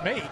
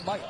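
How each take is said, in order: First: The vowel is a plain American 'ay' sound. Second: The vowel is an Australian 'eye'-like sound. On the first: "It's mate" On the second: "but they say Might"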